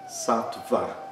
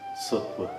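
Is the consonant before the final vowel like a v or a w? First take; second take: v; w. First: The consonant after tt sounds like v. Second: The consonant after tt sounds like w. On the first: The speaker calls it wrong. "Não é Sattva, como muitas pessoas acham" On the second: The speaker calls it right. "porque tem uma consoante antes dessa semivogal"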